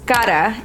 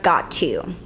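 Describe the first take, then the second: First: It is said as one reduced word. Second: It is said as two full words. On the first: "native speakers use contractions such as gotta" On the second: "instead of"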